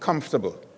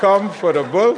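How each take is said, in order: First: The word is said at normal speed. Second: The word is said slowly, syllable by syllable.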